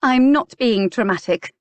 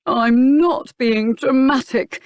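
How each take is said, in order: First: Higher, louder indignant denial; insist, stung and rising; indignant protest. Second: Slow, high, louder mocking parrot of her words; mimicking mockery. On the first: Clarissa protests, rising anger. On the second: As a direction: throw her own line back at her, mocking. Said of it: "he mimicked". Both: A narrator's reading.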